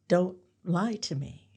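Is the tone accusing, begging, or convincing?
convincing. It sounds like trying to convince someone.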